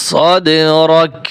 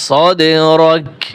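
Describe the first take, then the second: No difference in how they are said.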